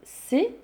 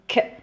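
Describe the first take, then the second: First: The letter is said by its full name. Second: Only the bare consonant sound is made. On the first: "elle s'appelle C" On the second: "elle fait le son K"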